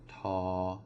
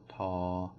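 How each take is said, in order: First: The syllable is said on a level pitch. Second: The syllable is said on a level pitch.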